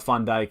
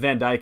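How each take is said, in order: First: The first word is said like 'von'. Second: The first word is said like 'van'. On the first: The speaker calls it right. "that's how you say it" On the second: The speaker calls it wrong.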